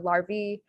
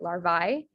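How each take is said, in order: First: The word ends with an 'ee' sound. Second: The word ends with an 'eye' sound.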